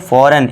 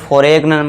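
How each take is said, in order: First: The g is silent in the word. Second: The g is pronounced in the word. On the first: The speaker calls it right. "हमारा जी silent. तो इसे क्या पढ़ेंगे" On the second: The speaker calls it wrong. "इसे फॉरेन मत पढ़ना"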